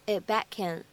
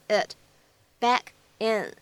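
First: "it back in" run together as "i'-back-kin"; linked reading. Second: "it", "back", "in" each on its own; careful unlinked "it, back, in"; separate words. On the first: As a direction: swallow the t of "it", link "back" onto "in". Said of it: "咱们就可以读成". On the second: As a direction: pause between "it", "back" and "in". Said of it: "这样的三个单词". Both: Shown as a demonstration.

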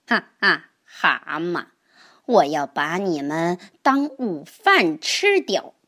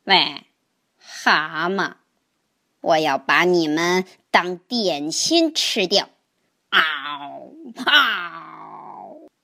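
First: A hint of a sly snake, laughing menace; lightly voiced snake gloating over lunch; hungry snake. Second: Lightly voiced menacing turtle, low growl at the end; a hungry turtle threatening a snack; fierce snapping turtle. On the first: Hungry snake threatens toads. (饥饿的蛇威胁蛤蟆，略带狡猾) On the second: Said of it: "鳄龟恶狠狠地说". (饥饿的鳄龟低声恶狠狠地威胁)

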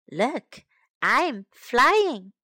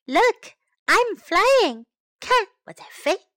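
First: Said in the usual way. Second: Excited exclamation. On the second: Shown as a demonstration. Teacher models the sentence for children, excited and loud. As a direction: say it like flying with joy. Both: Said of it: "Now time to learn some English".

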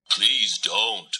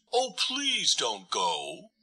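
First: Said in the usual way. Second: Slow, soft, hurt plea; hurt pleading. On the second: A narrator's reading. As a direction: beg her gently, a little wounded. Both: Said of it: "Turtle sounded hurt".

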